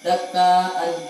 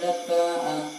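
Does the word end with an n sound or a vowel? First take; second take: n sound; vowel. First: The word ends with an n sound. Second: The word ends with a long vowel. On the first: The reading continues without a stop. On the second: The reader stops at this word.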